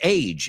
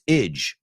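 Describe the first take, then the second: First: The ending has a long 'ay' vowel. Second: The ending has a short 'i' vowel. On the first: The speaker calls it wrong. "el aje no es age" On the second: The speaker calls it right. "it's idge"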